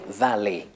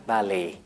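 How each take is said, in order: First: The final vowel has the modern pronunciation. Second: The final vowel has the modern pronunciation.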